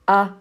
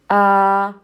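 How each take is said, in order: First: The vowel is cut to one count. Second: The vowel is held for two counts. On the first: "Cut it in half" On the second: "That's two counts"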